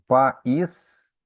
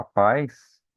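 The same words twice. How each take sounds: First: "país" split as pa... ÍS; A separated from I. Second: "pais" as one syllable, a gliding into i. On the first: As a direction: break "país" after pa, then a stressed ÍS. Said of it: "ele vai separar o A do I". ("país" em hiato, pa... ís, bem separado) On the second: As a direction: say "pais" with the diphthong ai, stressed on a. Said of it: "você vai ficar na mesma sílaba". ("pais" numa sílaba só, ditongo ai) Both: Shown as a demonstration.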